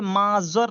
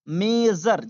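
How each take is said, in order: First: The first vowel sounds like 'ah'. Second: The first vowel sounds like 'ay'. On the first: The speaker calls it wrong. "अब इसे माजर नहीं" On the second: The speaker calls it right. "मेजर जैसे मैं बोल रहा हूँ वैसे बोलेंगे"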